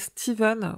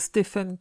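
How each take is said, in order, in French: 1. La consonne du milieu est le son v. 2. La consonne du milieu est le son f. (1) "en anglais, Stephen se prononce bien Steven" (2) "au lieu de"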